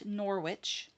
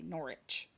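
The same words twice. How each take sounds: First: The name is pronounced as it is spelled. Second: The name is pronounced differently from its spelling. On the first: The speaker calls it wrong. "Not Norwich. It looks like Norwich, but they do not say that" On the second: The speaker calls it right. "They say Norwich"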